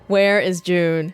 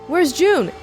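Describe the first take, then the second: First: It sounds suspicious and accusing. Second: It sounds worried and alarmed. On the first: The person asked about may have done something bad. "I'm saying it in a, what the hell did June do? Kind of way" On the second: The person asked about may be hurt. "oh my god, everyone is dead. Where's June? Is she hurt? Kind of way"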